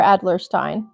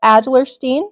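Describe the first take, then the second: First: "Adlerstein" ending like "stine"; alternative pronunciation. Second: "Adlerstein" ending like "steen"; alternative pronunciation. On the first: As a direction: say "Adlerstein" with a long i, rhyming with "fine". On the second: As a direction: say "Adlerstein" with a long ee in the last syllable. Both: Shown as a demonstration. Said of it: "not sure how to pronounce that".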